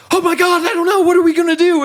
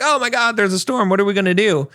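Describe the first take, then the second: First: Shrill-high, loud hammed-up panic of a helpless captain; over-the-top terrified shriek, much higher and louder; mock captain panic. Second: High, hammed-up panicked cry of a frightened crew; mock panic, pitched way up. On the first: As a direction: wail it like a captain losing it completely. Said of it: "If the captain starts freaking out". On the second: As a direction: squeal it out like a sailor spotting the storm. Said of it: "the crew kind of freaks out".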